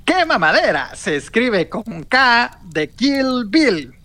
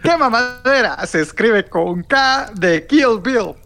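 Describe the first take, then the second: First: Slow, higher announcer read; slow announcer line. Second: Slow, higher announcer read again; slow announcer retake. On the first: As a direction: announce the show's spelling grandly. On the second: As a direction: repeat the spelling slowly, with emphasis. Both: Acted. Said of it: "va de nuevo".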